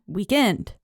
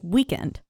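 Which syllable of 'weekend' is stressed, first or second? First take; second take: second; first. First: The stress is on the second syllable. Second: The stress is on the first syllable. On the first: "but he was like" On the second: "normally the emphasis is on week"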